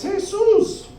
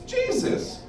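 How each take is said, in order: First: It is said the Spanish way, stress last. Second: It is said the English way, stress first. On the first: It refers to an ordinary guy causing trouble. "If it's, oh shit" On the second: It refers to the holy Son of God. "if it's all good and nice and holy"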